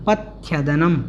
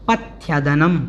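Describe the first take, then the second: The two takes are said the same way.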